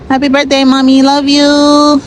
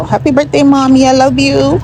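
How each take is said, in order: First: Higher and louder birthday call; loud birthday wish. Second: High, bright birthday greeting; cheerful birthday wish. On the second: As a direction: call out happy birthday high. Birthday wishes to mommy. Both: Real, not acted.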